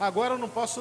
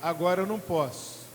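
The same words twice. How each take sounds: First: It is said in a stressed, irritated tone. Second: It is said in a calm, relaxed tone. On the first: The person is annoyed at being bothered. "se você tiver pilhado mesmo, você vai responder mal" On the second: The person is simply unavailable right now. "No barato você vai dizer"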